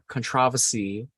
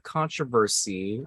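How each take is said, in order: First: It is said in an English way. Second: It is said in an American way.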